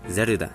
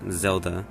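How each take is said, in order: First: It is said with Japanese sounds, as Zeruda. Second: It is said with English sounds, as Zelda. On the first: "it's just Japanese pronunciation of Zelda" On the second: "Her English name is definitely pronounced Zelda"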